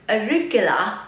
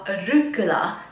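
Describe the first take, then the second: First: It is said without an American accent. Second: It is said with an American accent.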